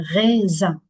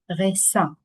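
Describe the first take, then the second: First: The middle consonant is a buzzing z sound. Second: The middle consonant is a hissing s sound. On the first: The speaker calls it right. "C'est raisin" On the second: The speaker calls it wrong. "On ne dit pas raisin. C'est pas correct"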